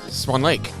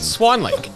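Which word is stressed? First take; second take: Lake; Swan. First: The stress falls on the second word. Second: The stress falls on the first word. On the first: This is how everyone else says it. The speaker calls it right. "Everyone I've ever heard says" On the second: This is how the other person said it. The speaker calls it wrong. "put the emphasis on Swan, like you just did"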